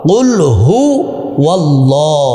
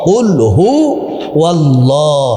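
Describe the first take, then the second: Both takes have the same delivery.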